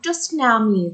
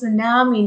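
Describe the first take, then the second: First: The word starts with a T sound. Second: The word starts with no T sound. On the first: The speaker calls it wrong. "not tsunami" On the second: The speaker calls it right. "The T is silent"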